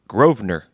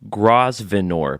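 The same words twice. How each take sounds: First: The S sound in the middle is silent. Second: The S sound in the middle is pronounced. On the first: This is how the name's owner says it. "but he says you pronounce it" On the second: This is how the name is spelled. "I'll phonetically say what it's spelled like"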